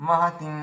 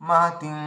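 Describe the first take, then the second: The two takes are said the same way.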